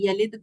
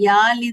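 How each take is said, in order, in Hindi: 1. पहला स्वर छोटा रखा जाता है। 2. पहला स्वर लंबा खींचा जाता है। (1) "यलिद पढ़ना है" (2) "यालिद नहीं पढ़ना है"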